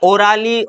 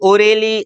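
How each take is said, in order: First: An 'ah' vowel is heard between r and l. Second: An 'eh' vowel is heard between r and l. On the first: "ऐसे नहीं बोलेंगे" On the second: "ऐसे नहीं बोलेंगे"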